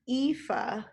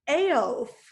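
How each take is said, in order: First: The name is said as 'Aoife'. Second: The name is said as 'Aof'. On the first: The speaker calls it right. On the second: The speaker calls it wrong.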